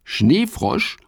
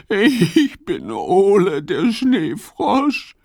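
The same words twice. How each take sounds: First: High, wondering echo of Schneefrosch; puzzled question. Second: High, slow, tearful little frog voice; sobbing. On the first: Fips repeats the strange name, puzzled. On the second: Ole the snow frog tells Fips who he is, sobbing. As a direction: sob out your name like a lost little frog. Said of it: "schluchzt er". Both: Acted.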